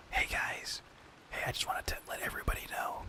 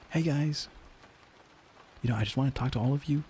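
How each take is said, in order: First: Unvoiced whispered manager pep talk. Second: Pep up the team like a cheery sales boss; upbeat manager voice. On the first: Whispering the manager's greeting to the team. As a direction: breathe it out as a secret whisper. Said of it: "should I whisper it?". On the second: Manager greeting the sales team, upbeat and bright. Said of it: "I'll just do it like this". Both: Shown as a demonstration.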